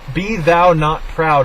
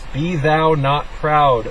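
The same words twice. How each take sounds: First: It is read at a fast pace. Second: It is read at a slow pace. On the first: The speaker calls it wrong. "I'm reading too fast" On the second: The speaker calls it right. "I'm going to read that again, but slower"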